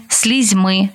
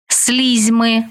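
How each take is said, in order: First: СлізьМИ, stressed on the final syllable; stress on last syllable. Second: СЛІЗьми, stressed on the first syllable. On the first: Teacher showing variant stresses to student, final stress on слізьми. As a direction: land on МИ in слізьми. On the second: Teacher showing variant stresses to student, first-syllable stress on слізьми. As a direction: punch СЛІЗ in слізьми. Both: Shown as a demonstration. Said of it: "Такий наголос ще називають варіантним".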